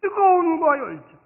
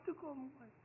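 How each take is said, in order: First: Higher, louder "뜨거움과" with feeling; passionate cry. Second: Much softer "뜨거움과" almost to nothing; quiet echo. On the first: Pastor urging lifelong passion, loud. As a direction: fire it out. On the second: Pastor repeating the phrase to himself, very soft. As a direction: let it fall away. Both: Shown as a demonstration. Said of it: "phrase said then echoed".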